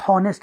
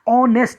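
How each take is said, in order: First: The word starts with an audible h sound. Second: The word starts with a vowel, h silent. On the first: The speaker calls it wrong. "हॉनेस्ट नहीं पढ़ते हैं" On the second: The speaker calls it right. "ऑनेस्ट हम पढ़ते हैं"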